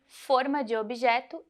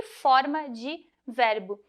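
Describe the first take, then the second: First: "forma" with a closed ô in the first syllable; closed vowel. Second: "forma" with an open ó in the first syllable; slow, careful "forma" with wide open o; open vowel. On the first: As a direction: say "forma" as fôr-ma, the object sense. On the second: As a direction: say "forma" as fór-ma, the verb sense. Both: Shown as a demonstration. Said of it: "em relação à palavra forma".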